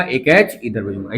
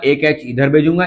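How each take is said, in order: First: Drawn out and lower, stretching भेजूंगा; emphatic teacher repetition; slower, lower repeat. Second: Said in the usual way. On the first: Shown as a demonstration. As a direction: repeat it slowly so the class can follow.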